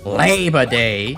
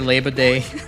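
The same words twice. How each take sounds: First: It is said in an imitated, exaggerated accent. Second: It is said in the speaker's everyday accent. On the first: "I gotta say it like how Vinny says. Okay, maybe more like" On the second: "I say Labor Day"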